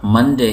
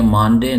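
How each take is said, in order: First: मंडे with a short 'un' vowel, as in English; correct pronunciation. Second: मानडे with a long open 'maan' vowel; wrong pronunciation. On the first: Teacher giving the right English word, correct pronunciation of मंडे. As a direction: say मंडे with short first vowel, MUN-day. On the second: Teacher showing learners the misreading, wrong pronunciation मानडे with long vowel. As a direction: say मानडे as misread, MAAN-day. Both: Shown as a demonstration. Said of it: "मानडे नहीं है".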